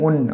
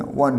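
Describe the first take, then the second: First: "won" said as own, without the w; wrong pronunciation. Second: "won" said like the number one; correct pronunciation. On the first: Teacher showing what not to say, mispronounced. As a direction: round o at the start of "won". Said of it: "আর ওন উচ্চারণ করবো". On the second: Teacher correcting the match sentence, w-sound. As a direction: clear w at the start of "won". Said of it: "উচ্চারণ করবো ওয়ান". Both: Shown as a demonstration.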